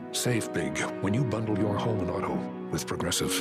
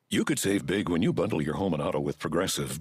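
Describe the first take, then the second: First: It is said in a grave, serious tone. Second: It is said in a plain, casual tone.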